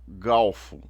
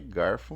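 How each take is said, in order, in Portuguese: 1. A consoante antes do f é L. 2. A consoante antes do f é R. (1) "Há pessoas que supõem que estão falando corretamente" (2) "mas é garfo mesmo"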